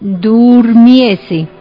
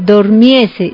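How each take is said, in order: First: The first syllable has a u vowel. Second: The first syllable has an o vowel. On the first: The speaker calls it right. "debe decirse durmiese" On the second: The speaker calls it wrong. "No se debe decir dormiese"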